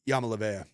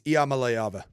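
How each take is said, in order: First: The surname begins with a 'ya' sound. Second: The surname begins with an 'ee-ah' sound. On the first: The speaker calls it wrong. "That's what I used to call him" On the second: The speaker calls it right.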